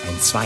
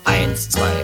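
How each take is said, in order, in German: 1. Die Betonung liegt auf dem zweiten Schlag. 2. Die Betonung liegt auf dem ersten Schlag. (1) "Bei der Samba hat es merkwürdigerweise eine Betonung auf der 2" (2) "Ein deutscher Marschtanz ist zum Beispiel ganz deutlich auf der 1 betont"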